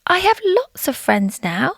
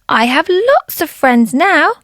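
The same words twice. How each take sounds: First: It is said at normal, soft volume. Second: It is said very loudly.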